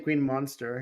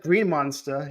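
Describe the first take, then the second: First: It has a general accent, r pronounced. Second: It has a New England accent, r dropped. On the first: Locals do not say it this way. The speaker calls it wrong. "They don't say green monster" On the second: This is how locals say it. The speaker calls it right. "everyone says green monster"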